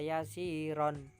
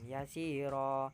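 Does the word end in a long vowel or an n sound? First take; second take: n sound; long vowel. First: The word ends with an n sound. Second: The word ends with a lengthened vowel. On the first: The reading continues without stopping. "kalau ini tidak waqaf maka dibaca yasiron karena itu tanwin" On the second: The reader stops at this word. "ketika waqaf maka tanwin dibaca panjang"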